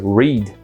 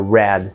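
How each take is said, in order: First: It is the present-tense pronunciation of the word. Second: It is the past-tense pronunciation of the word. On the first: The action happens now. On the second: The action happened before.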